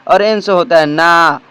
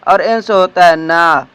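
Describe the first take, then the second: No difference in how they are said.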